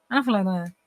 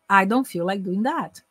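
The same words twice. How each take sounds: First: "I don't feel like doing that" mumbled as one blur; slurred example. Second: "I don't feel like doing that" slow, words separate; clear, easier version. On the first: Teacher repeats the hard-to-follow version, words slurred together. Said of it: "se eu falar assim". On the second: Teacher answers "Oi?" with a slow, clear repeat. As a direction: pronounce each word of "I don't feel like doing that" fully. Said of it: "Much better, much easier". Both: Shown as a demonstration.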